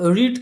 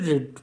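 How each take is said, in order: First: The vowel is long, like 'reed'. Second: The vowel is short, like 'red'. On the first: It is the present tense form. "দেখো রিড কিন্তু" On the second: It is the past tense form. "কিন্তু রেড রেড রেড"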